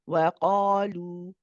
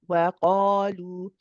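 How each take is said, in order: No difference in how they are said.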